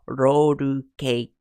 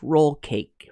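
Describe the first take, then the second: First: Roll is said as Japanese-style roru. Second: Roll is said with a clear English L. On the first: "in Japanese roru cake" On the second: "in English roll cake"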